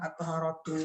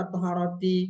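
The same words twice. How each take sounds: First: At-taharatu ending in "too"; final -u vowel. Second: At-taharati ending in "tee"; final -i vowel. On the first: Teacher testing another case ending, "at-taharatu" with final u. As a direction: end "at-taharatu" on u. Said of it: "Kenapa nggak at-taharatu". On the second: Teacher questioning the case ending, "at-taharati" with final i. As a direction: end "at-taharati" on i. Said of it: "kenapa dibaca at-taharati". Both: Shown as a demonstration.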